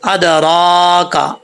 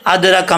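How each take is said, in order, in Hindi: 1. यह धीरे से खिंचे हुए स्वर के साथ बोला जाता है। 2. यह जल्दी से छोटे स्वर के साथ बोला जाता है। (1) "इसको खींचेंगे" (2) "ऐसे नहीं पढ़ना जल्दी में"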